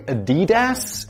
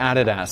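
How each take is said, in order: First: It is said with an American pronunciation. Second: It is said with a British pronunciation.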